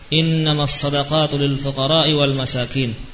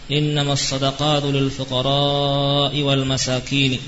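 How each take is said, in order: First: The vowel before the hamza is kept short. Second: The vowel before the hamza is held long. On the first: The speaker calls it wrong. "dengan meninggalkan bacaan panjangnya" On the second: The speaker calls it right. "dengan memanjangkannya"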